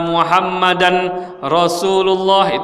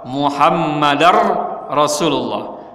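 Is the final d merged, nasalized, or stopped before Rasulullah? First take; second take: nasalized; merged. First: A nasal n is hidden before the r. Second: The d merges fully into the following r. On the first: The speaker calls it wrong. "ada yang mengikhfakan ... itu juga salah" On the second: The speaker calls it right. "diidghamkan dal kepada ra"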